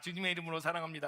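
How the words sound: It is said mechanically, only with the mouth.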